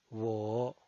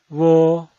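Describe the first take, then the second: First: The pitch dips low, then rises. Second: The pitch stays high and level. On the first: "desciende primero ... para ascender luego" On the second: "El primer tono es alto y sostenido"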